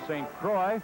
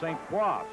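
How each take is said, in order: First: The name is said with English sounds. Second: The name is said with French sounds. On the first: This is how locals say it. The speaker calls it wrong. "they sometimes pronounce his name" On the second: This is the original pronunciation. The speaker calls it right. "The correct French pronunciation is"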